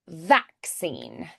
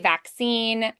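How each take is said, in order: First: The stress is on the first syllable. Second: The stress is on the second syllable. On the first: "They accent the first" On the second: "we say vaccine"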